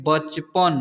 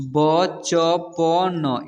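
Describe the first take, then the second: First: Said in the usual way. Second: बचपन very slow, each letter separate; बचपन broken into drawn-out letters; spelled out letter by letter. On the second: Shown as a demonstration. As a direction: sound out बचपन one long letter at a time. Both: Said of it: "इसे पढ़ेंगे".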